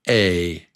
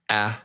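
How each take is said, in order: First: It is a long vowel, as in cake. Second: It is a short vowel, as in apple. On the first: "or long" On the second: "A is either short"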